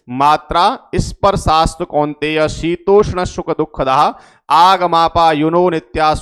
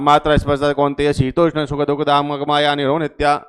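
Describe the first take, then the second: First: Each word is articulated clearly and distinctly. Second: The words are slurred and run together indistinctly. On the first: The speaker calls it right. "साफ साफ बोलना है।" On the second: The speaker calls it wrong. "ऐसा नहीं कि लबेड़ा लेकर के आपने बोल दिया"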